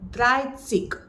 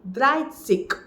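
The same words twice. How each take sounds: Both takes have the same delivery.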